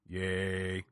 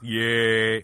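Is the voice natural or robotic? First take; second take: robotic; natural. First: It is said in a flat, mechanical robot voice. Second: It is said in a normal, natural voice.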